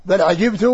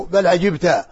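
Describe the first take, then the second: First: Final short u on عجبت; first-person vowel ending. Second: Final short a on عجبت; second-person vowel ending. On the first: Teacher contrasting speaker with addressee, عجبت ending in -tu. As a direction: say عجبت as "ʿajibtu". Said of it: "بخطاب المتكلم". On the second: Teacher contrasting addressee with speaker, عجبت ending in -ta. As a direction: say عجبت as "ʿajibta". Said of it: "وبمخاطبة المخاطب". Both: Shown as a demonstration.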